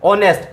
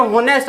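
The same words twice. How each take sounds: First: ऑनेस्ट said with an open o and no h; silent h. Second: होनेस्ट read with a sounded h at the start; spelling pronunciation. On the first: Teacher gives pupils the real spoken form, silent h. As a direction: start ऑनेस्ट straight on the vowel, h silent. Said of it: "लेकिन अपन बोलेंगे क्या इसको?". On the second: Teacher reads the word the way it looks, spelling pronunciation. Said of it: "लिख नजर आने को होनेस्ट आ रहा है". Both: Shown as a demonstration.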